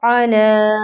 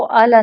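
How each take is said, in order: First: "अला" with a short, crisp opening a. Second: "आला" with the first a stretched long; wrong long alif. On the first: Tajweed teacher reciting the correct short form for students, crisp. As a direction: keep the a of "अला" short, no stretch. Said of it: "आला नहीं". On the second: Tajweed teacher warning students against the wrong reading, long aa. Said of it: "हम इसको आला नहीं पढ़ेंगे". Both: Shown as a demonstration.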